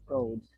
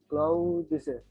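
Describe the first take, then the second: First: One consonant of the final cluster is dropped. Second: The full final consonant cluster is pronounced. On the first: "If you delete this z, z consonant, it will become clothes" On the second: "it has double consonant"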